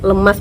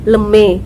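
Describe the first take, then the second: First: The word ends with an as sound. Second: The word ends with an e sound.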